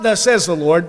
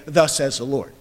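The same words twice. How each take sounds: First: Firm, declaring tone on Thus says the Lord; bold declaration. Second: Said in the usual way. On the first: Retold or imitated. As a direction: proclaim it with authority. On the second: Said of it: "We cannot in our own day say".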